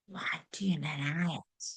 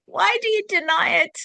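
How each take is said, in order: First: Soft unvoiced whisper; hushed challenge to the listener. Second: High, loud, insistent call; same question cried out to wake them up; loud repeat. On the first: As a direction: breathe the question right into their ear. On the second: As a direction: fling the question out hard. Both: Shown as a demonstration. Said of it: "I'll say it again".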